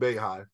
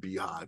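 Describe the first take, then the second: First: The first syllable sounds like 'bay'. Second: The first syllable sounds like 'bee'. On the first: The speaker calls it wrong. "first time I seen B-E-Y Hive, I'm pretty sure I said Bay Hive" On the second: The speaker calls it right. "I'm pretty sure it's probably Beehive now"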